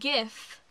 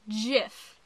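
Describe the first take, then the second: First: It starts with a hard G sound. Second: It starts with a soft J sound. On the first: The speaker calls it right. "It is GIF" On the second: The speaker calls it wrong. "Not GIF. If it was GIF, it would be spelled with a J"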